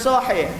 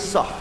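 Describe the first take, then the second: First: The word is said in full, two syllables. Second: The word is clipped to one short syllable. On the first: "kalau bilang sahih itu bukan sahih" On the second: "tapi sah gitu. Tidak mau panjang-panjang"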